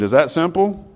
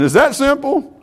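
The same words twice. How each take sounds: First: Said in the usual way. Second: "that" pushed up high on a rising question; emphatic "is THAT simple" with a high rise; stress on that. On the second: Shown as a demonstration. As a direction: punch "that" in "is that simple?". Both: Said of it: "One husband, is that simple?".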